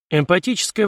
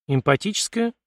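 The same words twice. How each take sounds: First: Said in the usual way. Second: Puzzled query, pitched up with a rising end; raised, questioning tone of mild astonishment; surprised echo. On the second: A narrator's reading. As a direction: repeat it back as a surprised question. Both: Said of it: "удивлённо переспросил Артём".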